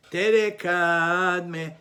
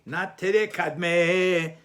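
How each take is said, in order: First: "tere kadme" with "te" and "kad" stressed, louder; the right way: "tere kadme" with the stress on "te" and "kad"; stress before the last syllable. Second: "tere kadme" slowly with the stress on the last syllable "me"; drawn out, "kadme" stressed at its end; the wrong way: "tere kadme" stressed on its final syllable. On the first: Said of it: "The emphasis is on the syllable before the last syllable". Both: Shown as a demonstration.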